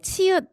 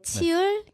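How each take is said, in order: First: The word ends with a short clipped consonant. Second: The word ends with an l-like sound. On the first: The speaker calls it right. "치읓, 뭐 키읔 이런 거 발음할 때" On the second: The speaker calls it wrong. "치을, 키을 이렇게 발음해요"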